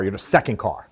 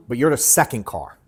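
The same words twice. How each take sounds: First: "second" punched, pitch lower at the end; stress on second. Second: You're gets the push, falling after; weight on "you're" in "But you're the second car"; stress on you're. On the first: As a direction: lean hard on "second" in "you're the second car". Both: Shown as a demonstration.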